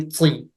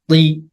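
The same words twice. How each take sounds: First: The t has a spitting burst. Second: The t has no spitting burst. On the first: The speaker calls it wrong. "Don't spit on your ta. Don't say ti" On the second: The speaker calls it right. "There's no spitting sound"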